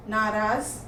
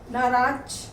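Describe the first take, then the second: First: Said in the usual way. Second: नाराज ending in a "ch"-like sound; mispronounced. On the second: Shown as a demonstration. Teacher reads the error list, mispronounced नाराज as "naraach". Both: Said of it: "मात्रा संबंधी अशुद्धियाँ दी गई".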